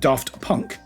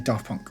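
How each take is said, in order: First: The T in Daft is clearly pronounced. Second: The T in Daft is left out. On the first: This follows the written spelling. "It's spelled Daft Punk" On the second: This is how the band says it. "but they actually say Daft Punk"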